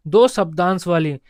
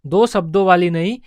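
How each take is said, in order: First: "शब्दांश" picked out as the correct term, falling at the end; stress on शब्दांश. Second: "शब्दों" picked out as the wrong term, then "नहीं"; corrective contrast. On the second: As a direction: stress "शब्दों" to rule it out. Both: Shown as a demonstration.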